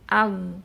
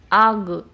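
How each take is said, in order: First: The final sound is abruptly cut off. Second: The final sound ends with a bouncing release. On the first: "suara jangan diputus ketika dia sukun. Jangan al" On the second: "Jangan pula di kol-kola, jangan ag"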